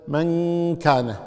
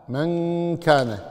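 The two takes are said the same way.

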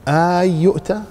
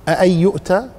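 No difference in how they are said.

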